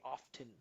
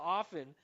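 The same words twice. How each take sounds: First: The T sound is pronounced in the middle. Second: The T sound is left out completely. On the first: This is a careful, formal pronunciation. "he's putting the T in there" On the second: This is a relaxed, casual pronunciation. "switch to"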